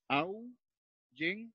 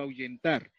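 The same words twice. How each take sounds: First: "ahuyentar" slowly broken as ahu-yen-tar; split into syllables. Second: Said in the usual way. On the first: Shown as a demonstration. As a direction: say "ahuyentar" in three beats with long pauses, AHU, YEN, TAR. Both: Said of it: "Separé".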